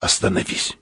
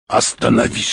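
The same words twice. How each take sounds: First: Urgent whispered command; sudden whisper. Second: Said in the usual way. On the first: A narrator's reading. Explorer suddenly orders the pilot to stop, whispering. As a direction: whisper it softly, without voice. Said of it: "вдруг сказал шёпотом".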